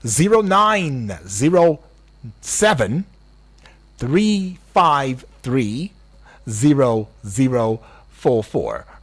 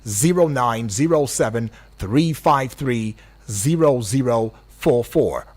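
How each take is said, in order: First: The number is read out slowly. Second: The number is read out fast.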